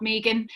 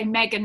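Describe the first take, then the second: First: Megan said the non-US way; name Megan the Australian way; other pronunciation. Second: Megan said the American way; name Megan in a US accent; US pronunciation. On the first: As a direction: contrast Megan with the US version. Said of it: "not Megan". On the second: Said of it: "in the U S you say Megan". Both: Shown as a demonstration.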